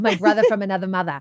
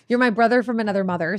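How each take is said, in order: First: It is said in a Boston accent. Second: It is said in a plain accent.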